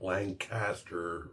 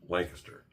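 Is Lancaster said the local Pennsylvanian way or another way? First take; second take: other; local. First: It uses a different, non-local pronunciation. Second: It uses the local Pennsylvanian pronunciation. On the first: This is how outsiders say it. The speaker calls it wrong. "not Lancaster" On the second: This is how people from the state say it. The speaker calls it right. "If you're a Pennsylvanian, it's Lancaster"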